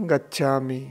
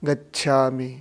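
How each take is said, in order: No difference in how they are said.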